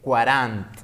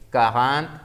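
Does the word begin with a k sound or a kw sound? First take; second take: kw; k. First: The u is sounded, giving a kw start. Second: The u is silent, giving a plain k start. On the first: The speaker calls it wrong. "muchos cometen el error de decir 40" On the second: The speaker calls it right. "la U no se pronuncia"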